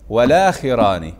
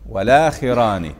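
Both takes have the same delivery.

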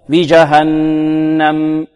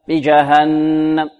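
First: The final m is held a moderate moment. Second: The final m is cut short. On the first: The speaker calls it right. "نعطيها قدرها من التوسط" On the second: The speaker calls it wrong. "لا نقول بجهنم"

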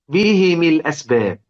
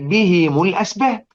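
First: The vowels after the h and the m are i. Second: The vowels after the h and the m are u. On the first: "كده هو يكسر الاثنين" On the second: "زي هم المفلحون"

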